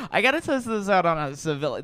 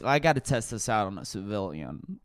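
First: Brighter repeat. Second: Low murmur. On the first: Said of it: "You know". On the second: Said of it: "I'm like". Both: Retold or imitated.

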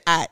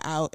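First: "out" said the regional Houston way. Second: Said in the usual way. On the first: Shown as a demonstration. Speaker showing what gave away her hometown, Houston-style "out". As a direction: give "out" its local Houston vowel, unlike the standard word. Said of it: "I said, "Out" instead of "out". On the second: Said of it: "instead of "out".

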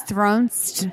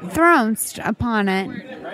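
First: Thronst with a nasal o; odd pronunciation. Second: Thronst said slowly with a nasal o; drawn-out thronst; odd pronunciation. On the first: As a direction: say thronst for thrust. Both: Shown as a demonstration. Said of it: "I pronounced it twice".

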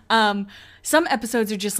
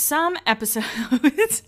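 First: Said in the usual way. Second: Slow, higher, drawn-out "some episodes" with a rising end. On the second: Shown as a demonstration. Vlogger fumbling the word, drawn-out slow take. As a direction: stretch "some episodes" out slowly and lift the end. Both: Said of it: "how many times can I say episodes in a row".

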